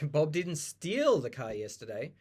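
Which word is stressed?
steal. The stress falls on the word steal. He did something else with it. "He just borrowed it"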